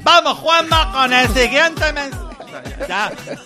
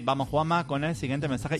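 First: It is said loudly, almost shouting. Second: It is said in a low, quiet tone. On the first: "hago lo mismo que los que presentan deportes en televisión ... ya hablo gritando" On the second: "lo hacía en un tono mucho más bajito"

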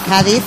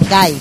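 First: Every letter of the word is pronounced. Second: Some letters of the word are dropped. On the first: "en casi toda España pues se pronuncia con las cinco letras" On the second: "en Andalucía se dice Cádiz"

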